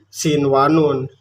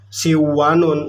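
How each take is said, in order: First: The n before the w is clearly heard. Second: The n before the w is dropped. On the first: The speaker calls it right. "jelas bunyi n-nya" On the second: The speaker calls it wrong. "enggak siwanun, enggak"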